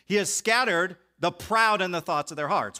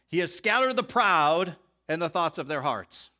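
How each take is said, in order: First: 'The proud' runs straight into 'the thoughts'. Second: A break separates 'the proud' from 'the thoughts'. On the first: The people are proud in the thoughts of their hearts. The speaker calls it right. "which is, I think, how you should understand it" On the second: Both the proud people and their thoughts are scattered. The speaker calls it wrong. "listen to the differences of how you read verse number 51"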